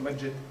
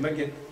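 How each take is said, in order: First: The middle consonant is a soft dj sound. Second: The middle consonant is a hard g sound. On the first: This is the newer palatalized form from about a century ago. "la prononciation euh, palatalisée" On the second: This is the older form without palatalization. "Il n'y a pas de palatalisation"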